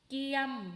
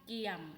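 First: The syllable has a mid level tone. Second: The syllable has a low tone. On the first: "สามัญ" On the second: "เอก"

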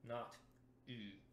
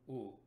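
First: The vowel is pinched with the mouth closed. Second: The vowel is round with the mouth open. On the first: The speaker calls it wrong. "where it all closes down and you bite on the note" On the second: The speaker calls it right. "The teeth are still apart"

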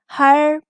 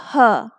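First: It ends in a vowel colored by r. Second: It ends in an open vowel with no r. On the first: "And the American is er" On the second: "Britishers don't pronounce the R and they say this sound as a"

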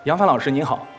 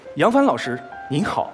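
First: It is said in a plain, relaxed everyday way. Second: It is said exaggerated, with crisp, full enunciation. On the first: An ordinary greeting in daily life. "平常的话在生活中我可能说" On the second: A greeting as performed on the musical stage. "如果说在音乐剧里面，他肯定就是这样子"

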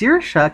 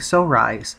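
First: The name is said the Irish way. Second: The name is read out as it is spelled. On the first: The speaker calls it right. "But it's pronounced Saoirse" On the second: The speaker calls it wrong. "It looks like so rise"

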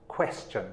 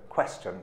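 First: The word begins with a clear kw sound. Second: The same.

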